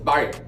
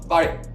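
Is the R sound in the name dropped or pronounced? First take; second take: pronounced; dropped. First: The R sound in the name is pronounced. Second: The R sound in the name is dropped. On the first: This is the correct pronunciation of the name. The speaker calls it right. "but it's Barry" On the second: This is how the named person says it herself. The speaker calls it wrong. "if you say it the way she says it, ... I didn't catch an R in there nowhere"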